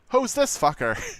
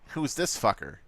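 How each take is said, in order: First: It is said in an exaggerated put-on character voice. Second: It is said in an ordinary, natural voice.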